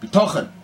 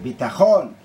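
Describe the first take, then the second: First: The stress falls on the second-to-last syllable. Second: The stress falls on the final syllable. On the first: Trust that raises the worldly up higher. "But I put the emphasis, mileel" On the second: Security in a worldly, physical sense. "Milera. The emphasis on the second half of the word"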